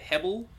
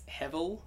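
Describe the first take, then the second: First: The middle consonant is a B sound. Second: The middle consonant is a V sound. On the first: "B for Barry" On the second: "with a V for victory"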